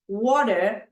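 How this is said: It is said in a British accent. "British English"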